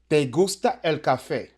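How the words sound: It is said with a statement tune. You like coffee. "primero tenemos la oración"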